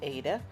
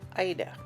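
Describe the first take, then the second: First: It is not said like the name Ida. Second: It is said like the name Ida.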